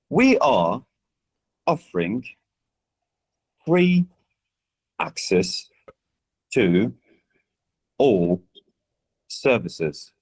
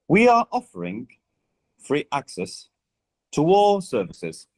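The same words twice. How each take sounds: First: The words are said separately without linking. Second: The words run together with linked sounds. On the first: "you have a sentence that would be read like this" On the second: "if we were to be connecting the speech for this sentence"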